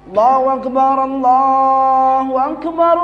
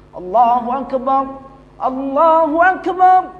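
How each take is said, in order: First: The two phrases run together without pausing. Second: A clear pause separates the two phrases. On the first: The speaker calls it wrong. "Jangan kayak gitu" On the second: The speaker calls it right. "hendaklah ada jeda antara kalimat yang satu dengan kalimat berikut"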